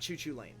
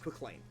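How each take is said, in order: First: The name begins with a repeated 'choo' sound. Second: The name begins with a single 'kwik' sound. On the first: The speaker calls it wrong. "It's not Choo Choo Lane" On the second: The speaker calls it right. "It's Quick Lane"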